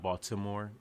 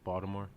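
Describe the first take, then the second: First: The t is said as a clear t. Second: The t is said as a d. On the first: The speaker calls it wrong. "not Baltimore" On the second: The speaker calls it right. "everything a T will replace with a D"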